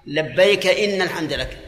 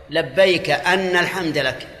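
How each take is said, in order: First: "إن" said inna, with a kasra on the hamza; kasra reading of inna. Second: "أن" said anna, with an opening fatha; fatha reading of anna. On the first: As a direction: read "إن" as inna, a new sentence. ("إنّ" بكسر الهمزة) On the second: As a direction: read "أن" as anna, the causal reading. ("أنّ" بفتح الهمزة) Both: Shown as a demonstration. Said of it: "إذا كانت الرواية".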